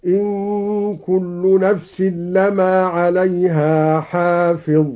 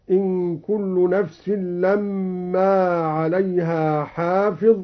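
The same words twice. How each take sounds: First: لما with a short single mim, slow recital; لما read light, "lama", chanted slowly. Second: Said in the usual way. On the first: Shown as a demonstration. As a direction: recite لما without doubling the m. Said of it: "بتخفيف الميم بمعنى إلا، هكذا". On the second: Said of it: "قرأ الدوري بتخفيف الميم".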